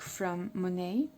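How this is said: It is said in an English accent.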